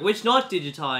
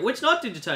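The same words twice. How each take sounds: First: Said in the usual way. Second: Same question pitched much higher; pushier repeat. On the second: Retold or imitated. Widower repeats his demand to rival, higher. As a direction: press harder, voice jumping up.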